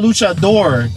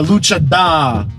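First: The final R sound is pronounced. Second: The final R sound is dropped. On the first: The speaker calls it right. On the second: The speaker calls it wrong.

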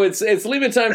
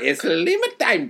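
First: It is said in the speaker's plain accent. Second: It is said in a put-on Hispanic accent.

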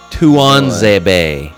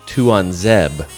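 First: The name ends with a pronounced final vowel. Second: The name ends on the consonant, vowel silent. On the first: This is how English announcers usually say it. The speaker calls it wrong. "Tuanzebe is what you're going to get" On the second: This is closer to the name's original pronunciation. The speaker calls it right. "the better pronunciation is probably Tuanzeb"

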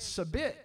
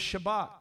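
First: The word begins with a plain s sound. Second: The word begins with an sh sound. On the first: The speaker calls it wrong. "I was saying sabit, but I was mispronouncing it" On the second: The speaker calls it right. "It was Shabbat"

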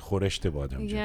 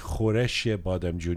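First: A t sound comes between khoresh and the ending. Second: Khoresh runs straight into the ending without a t. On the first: The speaker calls it right. "you say khoreshte badam jun" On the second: The speaker calls it wrong. "you don't say khoreshe badam jun"

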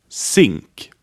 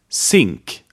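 Both takes have the same delivery.

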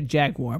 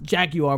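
First: It is said the American way, with a wah sound. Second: It is said the British way, without a wah sound. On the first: "Americans would say Jaguar" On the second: "It was pronounced Jaguar by the British"

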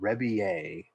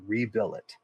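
First: The name is said with a French-style ending. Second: The name is said with English letter sounds. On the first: This is how the name is actually pronounced. "I believe it's pronounced Rebillet" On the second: This helps to remember how the name is written. "the only way I can remember to spell it is by saying Rebillet"

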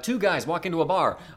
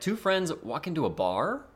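First: It is told plainly, without mystery. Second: It is told with an air of mystery.

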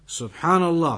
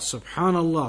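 The two takes are said the same way.

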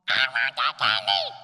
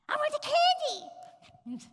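First: It is said at a louder volume. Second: It is said at a softer volume.

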